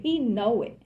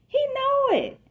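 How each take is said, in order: First: Said in the usual way. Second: Jumps way up high on He know it; high insistent. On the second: Shown as a demonstration. Reader to the listener, stressing that he knows, high and insistent. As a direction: sing it out high to really sell it.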